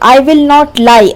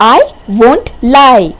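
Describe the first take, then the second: First: 'Will not' is said as two full words. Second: 'Will not' is shortened into one word. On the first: "full sentence" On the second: "short ಆಗಿ ಹೇಗೆ ಹೇಳ್ತೀವಿ"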